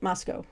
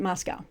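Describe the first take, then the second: First: It is pronounced the Irish way. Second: It is pronounced the American way. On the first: "back back in Ireland, we pronounce it Moscow" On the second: "I've always pronounced it Moscow"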